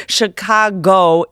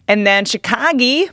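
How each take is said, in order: First: "Chicago" with a clear final o, slowly; Chicago said carefully. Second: "Chicago" ending in ee, shi-KAH-gee; odd pronunciation. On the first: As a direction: say "Chicago" as shi-KAH-go, ending in a clear oh. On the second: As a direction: say "Chicago" with the last vowel as ee. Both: Real, not acted. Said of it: "'Cause you keep saying Chicago".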